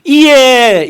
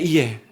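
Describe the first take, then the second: First: 이에 high, loud and drawn out; emphatic 이에. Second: 이에 dropped low and soft; quiet echo. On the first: Preacher pointing the congregation to 이에, emphatic. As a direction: proclaim 이에 with full force. Stressed word, then softer echo. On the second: Preacher repeating the key word to the congregation, quietly. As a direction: let 이에 fall away softly. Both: Shown as a demonstration.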